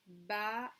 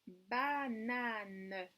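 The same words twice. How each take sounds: First: "Ba-na-ne" split into three clapped beats, ba, na, ne; "Ba-na-ne" chopped into its syllables for children. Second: Said in the usual way. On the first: Shown as a demonstration. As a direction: clap out each syllable of "Ba-na-ne". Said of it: "frapper les syllabes". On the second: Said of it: "Attention, je tourne".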